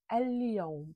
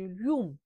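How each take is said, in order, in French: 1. Toutes les lettres et toutes les voyelles sont prononcées clairement. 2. Certaines voyelles et certaines lettres sont avalées et raccourcies. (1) "dans l'arabe littéraire, on prononce les lettres" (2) "en dialecte tunisien, on dit"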